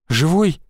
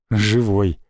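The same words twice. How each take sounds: First: Put-on a wary girl checking whether he survived; wary question. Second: A low, strained «Живой» that falls at the end; a wounded man forcing a reply; weak answer. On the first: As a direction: ask «Живой?» warily, half afraid of the answer. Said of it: "с опаской спросила". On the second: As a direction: push out «Живой» through burned lips. Burned man answers weakly. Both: A narrator's reading.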